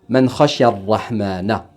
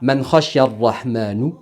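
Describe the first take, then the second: First: The last word ends with an 'a' vowel. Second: The last word ends with a 'u' vowel. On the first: The one who fears the Most Merciful. The speaker calls it right. "au lieu de" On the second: The one whom the Most Merciful fears. The speaker calls it wrong. "J'ai fini par dire"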